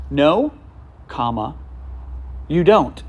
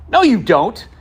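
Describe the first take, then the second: First: "No," then a clear pause, then "you don't" as a warm invitation; pause after no. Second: Sharp, loud and high dismissive "No, you don't"; curt no. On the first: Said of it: "he said it like this". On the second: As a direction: snap "No, you don't" high and quick as one blunt phrase. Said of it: "like that". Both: Retold or imitated.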